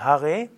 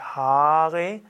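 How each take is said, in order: First: The first vowel A is short. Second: The first vowel A is long. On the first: The speaker calls it right. "Also kurzer A" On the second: The speaker calls it wrong. "also nicht Hare"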